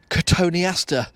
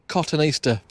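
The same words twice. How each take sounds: First: It begins with a plain co sound. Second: It begins like the word cotton. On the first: The speaker calls it right. "because that's what it's called" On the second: The speaker calls it wrong. "but it's only got one T at the first part of it"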